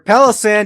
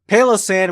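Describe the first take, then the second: First: The name begins like the word palace. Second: The name begins like the word pail. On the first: It is a palace made of sand. "you have a palace of sand" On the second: It is a pail full of sand. "which is a pail of sand"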